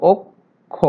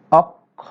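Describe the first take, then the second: First: "অক্ষ" drawn out slowly as ok... kho; correct k then kh. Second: "অক্ষ" with open vowels, awkh... khaw; wrong doubled kh. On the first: Teacher corrects to the real form, "অক্ষ" slowly as ok-kho. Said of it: "আসলে অক্ষ". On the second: Teacher demonstrates the mistaken form, "অক্ষ" as awkh-khaw. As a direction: say "অক্ষ" split, aspirating both halves as awkh-khaw. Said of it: "তাহলে কি উচ্চারণ হতো". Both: Shown as a demonstration.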